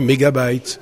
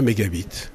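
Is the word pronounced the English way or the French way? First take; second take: English; French. First: The ending is said like English 'bite'. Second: The ending is read the French way, like 'bit'. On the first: "en anglais, ça se dit mégabyte" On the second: "en français, quand on le lit comme ça, ça devient mégabit"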